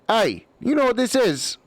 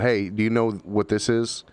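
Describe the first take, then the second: First: It is said in a put-on character voice. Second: It is said in the speaker's normal voice.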